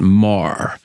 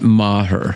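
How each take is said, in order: First: The name is said as one syllable, like 'Mar'. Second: The name is said as two syllables, like 'Ma-her'. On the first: The speaker calls it right. "you're supposed to pronounce that Mar" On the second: The speaker calls it wrong. "Not Maher"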